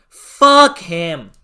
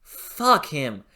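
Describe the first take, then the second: First: "Fuck him" pushed out much louder, stress on "Fuck"; louder angry curse. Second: Said in the usual way. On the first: Real, not acted. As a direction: finish the build with a hard "Fuck". Repeated curse, building up.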